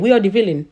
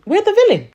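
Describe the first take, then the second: First: Said in the usual way. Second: Pitched up high, exasperated insistence; exasperated repeat. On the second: Real, not acted.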